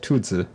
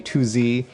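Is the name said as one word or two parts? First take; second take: one word; two parts. First: The name is said as one blended word. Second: The name is said as two separate parts. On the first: The speaker calls it right. "it's actually pronounced Tuzi" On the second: The speaker calls it wrong. "Lots of people are pronouncing it"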